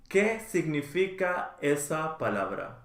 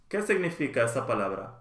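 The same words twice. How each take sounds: First: Slow model. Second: Natural speed. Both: Shown as a demonstration. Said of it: "teacher models phrase twice".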